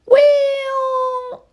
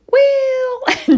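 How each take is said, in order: First: High, drawn-out squawky well; parrot copying me. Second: High, loud, drawn-out squawk of well; parrot copying me. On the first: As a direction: stretch the word like a mimicking parrot. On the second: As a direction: belt it out like a parrot mimic. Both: Retold or imitated. Bird copying the owner's voice, high drawn-out parrot. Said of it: "just in my voice".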